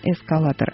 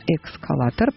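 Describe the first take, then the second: First: The word starts with 'es' and no k sound. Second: The word starts with 'eks', adding a k sound. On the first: The speaker calls it right. "не эскалатор" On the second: The speaker calls it wrong. "очень часто коверкуют"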